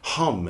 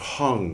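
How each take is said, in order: First: The word ends with an m sound. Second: The word ends with an ng sound. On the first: This follows the Sanskrit form. The speaker calls it right. "We should say hum instead of hung" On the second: This follows the traditional Tibetan form. The speaker calls it wrong. "we've been pronouncing it wrong"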